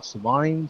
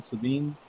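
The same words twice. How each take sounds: First: Savine said to rhyme with "vine"; questioning "suh-VINE" for Savine; trying a pronunciation. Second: Savine said with a "veen" ending; soft "suh-VEEN" for Savine; trying a pronunciation. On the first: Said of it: "Uh, what". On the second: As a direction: try Savine as "suh-VEEN", softly questioning. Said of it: "I'd say Savine". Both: Shown as a demonstration.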